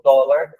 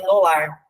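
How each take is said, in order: First: "dólar" stressed on DÓ, with open o; pronúncia correta. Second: "dólar" read as do-LAR; leitura sem acento. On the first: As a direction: hit the first syllable of "dólar". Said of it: "fica a pronúncia correta". ("dólar" com a tônica no DÓ) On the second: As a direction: move the stress to the last syllable of "dólar". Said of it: "Se não tivesse o acento". ("dólar" como oxítona, tônica no LAR) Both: Shown as a demonstration.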